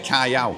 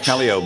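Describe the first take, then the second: First: It is said like 'kai-ow', ending in ow. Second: It is said like 'cal-ee-oh', ending in ee-oh. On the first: This is how the name is actually said. The speaker calls it right. "it's actually Callao" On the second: This is how British speakers say it. The speaker calls it wrong. "The Brits say Callio for some reason"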